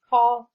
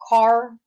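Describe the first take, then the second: First: The final R sound is dropped. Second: The final R sound is pronounced. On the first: "non-rhotic accents do not pronounce the R" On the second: "that pronounces R, that means rhotic"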